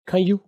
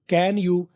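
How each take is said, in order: First: The words blend into one short syllable. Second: Both words are said fully and separately. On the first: This is the form used in fluent speech. "कैन की बजाय खे और आगे यू मिला दिया" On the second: This is the form as it is read. "ये आप वो है जो आप पढ़ते हैं"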